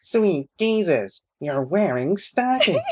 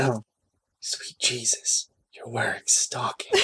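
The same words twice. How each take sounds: First: High, slow nerd voice; nerdy voice. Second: Breathless hushed read; whispering. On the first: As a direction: squeak it out like a geek. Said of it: "Can you say it in the nerdy voice?". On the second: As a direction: breathe it out in awe. Reading the line breathily. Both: Acted.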